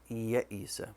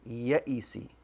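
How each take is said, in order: First: The word ends with the vowel 'a'. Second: The word ends with the vowel 'i'. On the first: The speaker calls it right. "it should have had a fatha" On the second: The speaker calls it wrong. "I pronounced it with a kasra"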